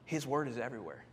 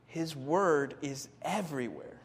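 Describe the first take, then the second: First: Said in the usual way. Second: "His word is everywhere" said slowly, stressing word; slow down and lean on "word"; slow emphatic repeat. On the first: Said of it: "I skipped one". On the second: Shown as a demonstration.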